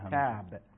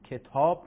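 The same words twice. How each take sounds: First: The long vowel is an open Arabic 'ah'. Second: The long vowel is a rounded Persian 'aw'. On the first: The speaker calls it right. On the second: The speaker calls it wrong.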